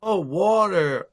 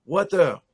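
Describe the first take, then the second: First: Slow, drawn-out American "water"; mock American accent. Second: "water" with a crisp T; old pronunciation. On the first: Imitating Americans who finally understand, exaggerated American accent. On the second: Retold or imitated. Newcomer repeating to baffled Americans, "water" with a clear T. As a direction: keep the T in "water". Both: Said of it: "I used to say".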